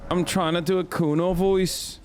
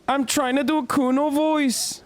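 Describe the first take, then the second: First: Said in the usual way. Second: Much higher, mock Scouse character voice; Kuno voice. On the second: Shown as a demonstration. Streamer shows his character's voice, high mock Scouse. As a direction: pitch it up into a cheeky Liverpool lad.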